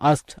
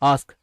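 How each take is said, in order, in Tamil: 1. கடைசியில தெளிவான t ஒலியோட முடியுது. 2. t இல்லாம k-ல முடியுது. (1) "ஆஸ்க்ட் அப்படின்னு பேச வேண்டாம்" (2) "ஆஸ்க் அப்படின்னு பேசுங்க"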